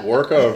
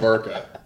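First: The word begins with a W sound. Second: The word begins with a V sound. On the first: "Did she pronounce it Worka" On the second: "or Varka? ... she always said Varka"

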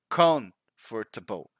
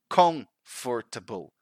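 First: The middle 'for' syllable is pronounced fully. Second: The middle 'for' syllable is pronounced fully.

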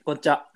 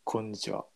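First: It is said in a playful, joking voice. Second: It is said in a deep, dandy voice.

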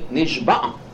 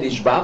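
First: The word ends with a guttural throat sound. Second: The word ends on a plain vowel. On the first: It means someone swore an oath. The speaker calls it right. "but say Nishba" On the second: It means someone was captured. The speaker calls it wrong. "Don't say Nishba"

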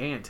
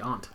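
First: It sounds just like the insect 'ant'. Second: It sounds different from the insect 'ant'. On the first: This is the way it was said in childhood. "I used to say aunt" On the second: This is the newer way, which others tease as fancy. "now I say aunt"

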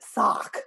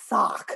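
First: The word is said in an American accent. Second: The same.

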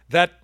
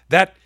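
Both takes have the same delivery.

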